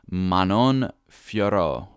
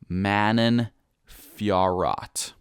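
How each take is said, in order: First: The name is said without an American accent. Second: The name is said with a strong American accent. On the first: "I think that's how you pronounce it" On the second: "if I'm going to make it really American"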